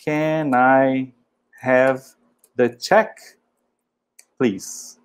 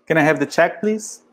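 First: Can I, have, the check, please with pauses between; Can I have the check please, palavra por palavra; word by word. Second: Said in the usual way. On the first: Shown as a demonstration. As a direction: split it into slow separate words. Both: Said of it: "Assim, ó".

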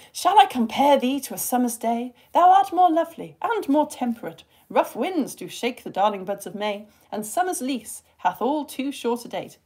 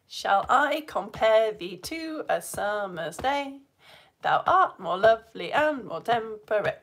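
First: Expressive sonnet recital; verse reading. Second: Slow weak-strong beat on "Shall I compare thee"; iambic beat. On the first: Teacher reading a sonnet to test the class, expressive. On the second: Teacher proving the sonnet is iambic pentameter, rhythmic. Shows the beat after the quiz. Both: Shown as a demonstration.

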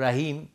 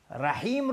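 First: «رحیم» with plain h; changed letter. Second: «رحیم» with mid-throat ḥ; sharp raspy ḥ inside «رحیم»; correct ha. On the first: Teacher shows one letter turned into another, changed letter. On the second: Teacher names the word being altered, correct ha. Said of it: "یک حرف رو تبدیل به حرف". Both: Shown as a demonstration.

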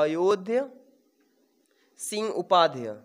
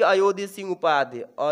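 First: "Ayodhya Singh Upadhyay" with a long pause after Ayodhya; dictating a name. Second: Said in the usual way. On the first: Shown as a demonstration. Teacher repeats name for dictation. ("Ayodhya Singh Upadhyay" को ठहर-ठहर कर बोलें)

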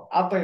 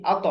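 First: "আতে" released into a thin e sound; wrong qalqalah. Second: "আত" bounced into a rounded o sound; upward qalqalah. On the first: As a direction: let the end of "আতে" go light and forward. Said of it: "আতে নয়". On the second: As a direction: echo the end of "আত" heavy and rounded. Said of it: "তর উচ্চারণ হবে কি". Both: Shown as a demonstration.

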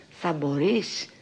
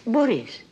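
First: ΜΠΟΡΕΙΣ drawn out slowly and rising into a question; anxious question. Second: Μπορείς pitched high, then falling to a firm close; confident answer. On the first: Actress voicing her all-day worry about tonight's show, anxious slow question. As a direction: ask it slowly, lifting the end of μπορείς. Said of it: "με την αγωνία". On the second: Actress answering her own nightly worry, high falling statement. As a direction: answer it firmly, μπορείς starting high and dropping. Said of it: "Και ενώ κάθε βράδυ". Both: Retold or imitated.

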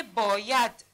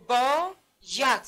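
First: Said in the usual way. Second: باید slowly split as با, pause, ید; split into syllables. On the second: Shown as a demonstration. Teacher showing pupils the two parts, باید split slowly. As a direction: stretch and separate the two beats of باید. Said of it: "باید چند بخش است؟".

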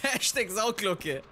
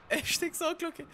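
First: Laughing. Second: "Hashtag Sauglocke" said high and light, tossed off; playful high-pitched hashtag callout; high squeaky repeat. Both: Real, not acted.

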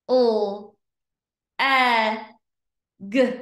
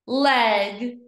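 First: L, e, g as separate letter sounds; long gaps between L, e and g; sounded out slowly. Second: LEG joined in one go; blended word. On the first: Teacher pointing to each dot, L-e-g sounded out. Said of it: "read each word slow". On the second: Teacher blending for pupils, LEG as one word. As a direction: say LEG whole and firmly. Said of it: "read each word fast". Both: Shown as a demonstration.

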